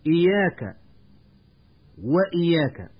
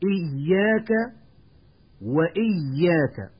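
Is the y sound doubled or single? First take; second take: single; doubled. First: The y sound is single, not doubled. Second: The y sound is doubled. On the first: The speaker calls it wrong. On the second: The speaker calls it right.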